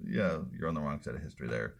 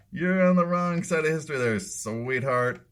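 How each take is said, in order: First: Said in the usual way. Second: Higher, louder, fast condescending sneer; high patronizing mock. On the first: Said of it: "repeated take". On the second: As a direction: talk down to her like a child. Mocking repeat of her line.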